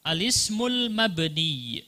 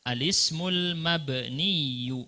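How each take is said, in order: First: Said in the usual way. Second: Slow alismul mabniyu with doubled y sound at the end; tasydid on mabniyu. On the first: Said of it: "ada tasydid di belakang seharusnya". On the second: Shown as a demonstration. Teacher showing students how to read alismul mabniyu. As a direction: stretch out mabniyu, stressing the tasydid.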